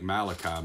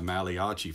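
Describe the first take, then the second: First: Said in the usual way. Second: Malachi said like an Italian name, "Mah-lee-AH-chee"; mispronounced Malachi. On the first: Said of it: "I called, uh, I called". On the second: Retold or imitated. Preacher confessing his old mistake, Malachi mispronounced as Italian. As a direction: stretch Malachi into four Italian-style syllables. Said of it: "I tend to mispronounce some words".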